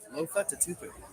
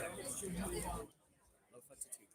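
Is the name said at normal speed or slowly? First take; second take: normal speed; slowly. First: The name is said at normal speed. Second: The name is said slowly.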